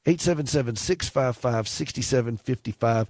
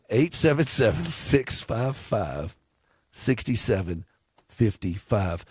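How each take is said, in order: First: The number is read at a quick pace. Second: The number is read at a slow pace. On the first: The speaker calls it wrong. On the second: The speaker calls it right.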